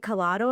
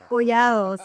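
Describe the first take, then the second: First: The name is said with an English-style pronunciation. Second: The name is said with a Spanish pronunciation. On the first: This is how the speaker usually says it. "I usually say Colado" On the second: This honors the speaker's Spanish heritage. "I'm Spanish. I have to say Collado"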